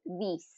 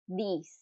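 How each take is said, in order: Both takes have the same delivery.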